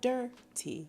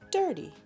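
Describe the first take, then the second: First: The word is said slowly. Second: The word is said quickly. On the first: "when we say it slowly" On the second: "when we speed it up a little bit"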